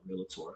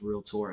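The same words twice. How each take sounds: First: It is said with three syllables, real-a-tor. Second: It is said with two syllables, real-tor. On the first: The speaker calls it wrong. "and not realtor" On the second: The speaker calls it right. "everybody who says realtor"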